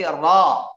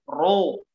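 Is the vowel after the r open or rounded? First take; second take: open; rounded. First: The vowel after the r is open. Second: The vowel after the r is rounded. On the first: The speaker calls it right. "tapi ra, dibuka" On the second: The speaker calls it wrong. "bukan ru"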